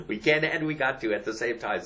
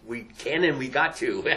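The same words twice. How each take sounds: First: Can stressed, the rest even. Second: And punched a bit louder; stress on and. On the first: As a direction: hit the word "can" in "We can and we got to". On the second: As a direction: lean on the word "and" in "we can and we got to". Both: Shown as a demonstration.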